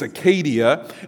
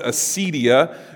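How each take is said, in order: First: The word has its Greek pronunciation. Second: The word has its English pronunciation. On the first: "but in Greek it's acadia" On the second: "we would pronounce it acedia in English"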